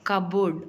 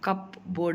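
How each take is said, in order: First: The word is said without a p sound. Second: The word is said with a clear p sound. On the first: The speaker calls it right. "పి అనేది ప్రొనౌన్సియేట్ చెయ్యము, కబోర్డ్ అంటాం" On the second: The speaker calls it wrong. "కప్ బోర్డ్ అనం"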